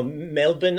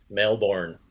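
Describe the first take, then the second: First: Melbourne reduced to "Mel-bun"; attempted Aussie pronunciation. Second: Melbourne with a full "born" and hard R; American pronunciation. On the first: Teacher guessing how Aussies say it, Melbourne as "Mel-bun". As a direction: swallow the end of Melbourne, dropping the R. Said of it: "how the Aussies say it". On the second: Teacher showing how Americans pronounce it, full "born" in Melbourne. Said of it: "the way Americans pronounce Melbourne". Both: Shown as a demonstration.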